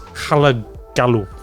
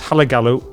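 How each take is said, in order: First: The name is said in a put-on accent. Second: The name is said in his normal accent.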